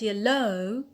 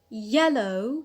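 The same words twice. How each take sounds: First: The stress is on the second syllable. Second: The stress is on the first syllable. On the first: The speaker calls it wrong. "not yellow ... not on the alt" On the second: The speaker calls it right. "I said yellow, stress on the penult"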